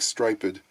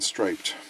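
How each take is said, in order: First: It is said in an old-fashioned, Shakespearean way. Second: It is said in the ordinary modern way. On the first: "they go back and do a kind of Shakespearean thing with words like striped" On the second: "rather than"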